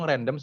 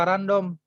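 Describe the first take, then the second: First: It is pronounced with English sounds. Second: It is pronounced with Indonesian reading sounds. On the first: The speaker calls it right. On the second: The speaker calls it wrong.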